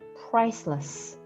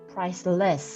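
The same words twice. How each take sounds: First: The second syllable is weak with a reduced vowel. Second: The second syllable is strong with a full vowel. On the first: The speaker calls it right. "강세는 이렇게 price, priceless 이렇게 발음을 하시는데요" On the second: The speaker calls it wrong. "이렇게 좀 세게 발음을 하시면 ... 이상하게 들릴 수도 있고"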